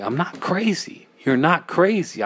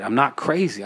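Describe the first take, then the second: First: Higher-pitched, insisting to oneself; anxious self-reassurance. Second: Said in the usual way. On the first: Acted. Narrator trying to convince themselves of sanity, anxious and high.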